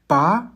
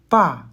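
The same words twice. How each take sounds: First: The syllable is said with the second tone. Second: The syllable is said with the fourth tone. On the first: "Deuxième ton" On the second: "Quatrième ton"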